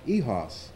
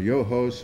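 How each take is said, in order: First: It is said with a French-style pronunciation. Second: It is said with a plain Midwestern American pronunciation. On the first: This gives the name some class. The speaker calls it right. "a French pronunciation" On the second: Other people said it this way. The speaker calls it wrong. "all of these Midwestern uh, uh, wimpy's own pronunciations"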